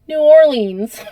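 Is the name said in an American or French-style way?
American. It is said in an American way.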